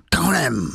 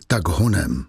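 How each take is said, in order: First: "Tak honem" run together as one higher wild cry; wild, inhuman "Tak honem"; animal-like bark. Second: Said in the usual way. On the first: A narrator's reading. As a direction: bark "Tak honem" like a beast, words fused. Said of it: "byl to zvířecí zvuk". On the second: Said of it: "Javert neřekl".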